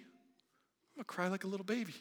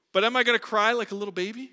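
First: Put-on softer answer falling on "baby"; wry answer. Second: Quick, louder question rising at the end; rhetorical question. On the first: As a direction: admit it with a quiet shrug. Answers own question. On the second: Acted. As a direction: toss it out as a teasing challenge. Rhetorical question then answer.

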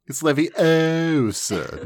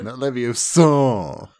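First: "Leviosa" as levi-OH-sa, slow and drawn out; "Leviosa" with a stretched OH; stress on O. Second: "Leviosa" as levio-SAR, stretched; "Leviosa" ending in a long SAR; stress on final syllable. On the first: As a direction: lean hard on the O in "Leviosa". Repeats film's pronunciation correction. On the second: Repeats wrong pronunciation. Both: Acted.

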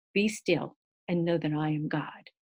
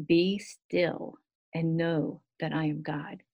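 First: Said in the usual way. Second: Slow, unhurried recitation of the verse; slow recited verse. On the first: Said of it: "And the Lord said". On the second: Shown as a demonstration. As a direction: let each word settle, slowly. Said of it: "So be still and know that I am God".

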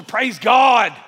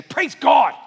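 First: Put-on loud old-school church shout of "Praise God"; shouted "Praise God", old-time revival style. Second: Louder, higher, fervent "Praise God"; meant it. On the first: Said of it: "Say it old school". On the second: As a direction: say "Praise God" like you mean it. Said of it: "Just say it like you mean it". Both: Shown as a demonstration.

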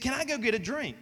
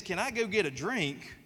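First: Student asking. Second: Said in the usual way. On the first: Retold or imitated. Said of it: "She said". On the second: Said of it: "when a kid says".

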